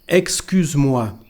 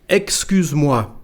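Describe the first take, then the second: Both takes have the same delivery.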